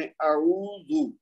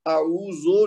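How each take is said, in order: First: "اعوذ" very slow, a-oo-zu; word practised separately. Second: "اعوذو" ending in an o sound; wrong vowel demo. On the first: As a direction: draw out each syllable of اعوذ, ending in u. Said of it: "علیحدہ علیحدہ کر کے کوشش کریں". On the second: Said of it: "اعوذو نہیں کہیں گے". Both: Shown as a demonstration.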